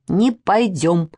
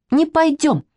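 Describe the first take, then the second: First: Slow, drawn-out pouting refusal; sulky little girl. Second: Put-on higher-pitched childish refusal, in a huff; sulky girl. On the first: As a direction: drag out a mild childish sulk. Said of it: "надулась Манечка". (обиженно, медленно, надувшись) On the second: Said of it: "надулась Катя". (обиженно, высоким детским голосом) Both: A narrator's reading.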